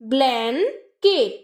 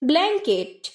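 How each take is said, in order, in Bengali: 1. উচ্চারণাংশগুলো আলাদা করে, মাঝে বিরতি দিয়ে বলা হয়। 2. উচ্চারণাংশগুলো বিরতি ছাড়া মসৃণভাবে জোড়া লাগিয়ে বলা হয়।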